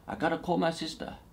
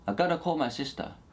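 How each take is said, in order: First: The 've' sound after 'I' is dropped. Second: The 've' sound after 'I' is dropped.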